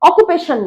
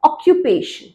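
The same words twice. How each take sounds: First: The second syllable is said 'koo' without a y. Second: The second syllable is said 'kyoo' with a y. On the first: The speaker calls it wrong. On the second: The speaker calls it right.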